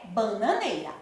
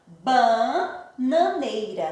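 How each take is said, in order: First: Said in the usual way. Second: BA-NA-NEI-RA, drawn out in separate beats; teacher slowly sounding out the syllables of Bananeira. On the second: Shown as a demonstration. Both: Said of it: "fazer a separação silábica".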